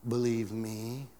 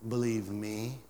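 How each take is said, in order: First: Believe me said slowly, rising; slower repeat. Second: Said in the usual way. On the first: Shown as a demonstration. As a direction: linger on Believe me. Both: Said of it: "repeated slower".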